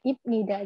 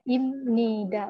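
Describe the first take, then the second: First: The first syllable ends in a b sound. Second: The first syllable ends in an m sound. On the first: The speaker calls it wrong. "bukan ibnida" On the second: The speaker calls it right. "jadi bacanya imnida"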